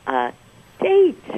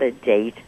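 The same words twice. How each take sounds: First: It is said with heavy, pointed emphasis. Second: It is said plainly, without special emphasis.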